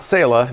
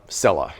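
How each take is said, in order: First: The name does not rhyme with Bella. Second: The name rhymes with Bella. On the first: The speaker calls it wrong. "not Sela" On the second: The speaker calls it right. "it rhymes with Bella"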